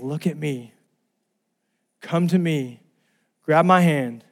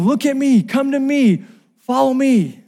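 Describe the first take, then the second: First: Calm, tender call in short phrases; gentle invitation. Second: High, insistent rescuer's call; urgent yelling. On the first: God calling to the listener, gentle calm invitation. God's loving call, same words softened. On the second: Lifeguard calling to the drowning brother, high urgent yell. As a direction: call out high to pull their attention to you. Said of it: "The reason he's yelling". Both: Retold or imitated.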